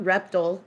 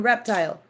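First: "reptile" said REP-tull; rejected REP-tull pronunciation. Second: "reptile" with long-i TILE; full second syllable in "reptile", REP-TILE; REP-tile pronunciation. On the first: Rejecting the other way, "reptile" as REP-tull. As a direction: dull short ending on "reptile", REP-tull. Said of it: "Yes, and reptile". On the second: Approving the right way, "reptile" as REP-tile. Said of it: "not reptile". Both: Shown as a demonstration.

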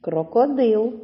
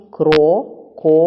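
First: Said in the usual way. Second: "Крокодил" slowly as Кро, ко, дил with pauses; loud, separated syllables in "Крокодил": КРО... ко... дил; teacher dividing "Крокодил" piece by piece; split into syllables. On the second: Shown as a demonstration. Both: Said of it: "Будьте уважні".

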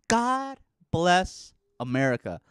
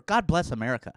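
First: Sung, slow, louder, belted like the anthem; mock sung anthem. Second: Said in the usual way. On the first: Shown as a demonstration. Sung, mocking patriotism, belting the anthem. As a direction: croon it patriotically. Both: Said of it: "Land that I love".

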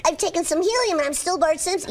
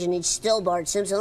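First: Put-on higher helium-like boy voice; younger Bart. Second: Lightly lowered cartoon boy voice; a slightly older, lower Bart. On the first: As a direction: squeeze it up high like helium. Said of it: "make him a little bit younger". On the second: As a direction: Bart nudged down a bit in pitch. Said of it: "take him down into this range". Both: Shown as a demonstration.

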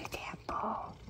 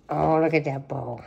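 First: Whispered, lower; whispered repeat to the cat. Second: Said in the usual way. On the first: Real, not acted. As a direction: hush the line to the cat. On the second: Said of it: "bowl line voiced then whispered".

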